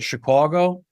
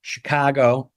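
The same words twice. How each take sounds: First: "Chicago" with a rounded "caw" in the middle; Chicawgo variant. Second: "Chicago" with an open "cah" in the middle; open-vowel variant. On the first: Actor listing how people say it, "Chicago" as "shi-KWAW-go". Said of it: "people who say it Chicago". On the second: Actor listing different ways, "Chicago" as "shi-KAH-go". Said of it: "all these different ways". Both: Shown as a demonstration.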